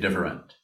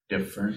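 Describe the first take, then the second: First: It is said in a serious, critical tone. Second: It is said in a playful, humorous tone. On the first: It criticizes the other person's view. The speaker calls it wrong. "You don't need to say different" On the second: It lightly jokes instead of criticizing. The speaker calls it right. "It's not a criticism. It's humor"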